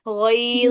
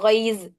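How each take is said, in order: First: The final consonant is a heavy, thick sound. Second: The final consonant is a light z sound. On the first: The speaker calls it right. "देखिए मोटा करके" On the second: The speaker calls it wrong. "गईज नहीं, जा आ रही है"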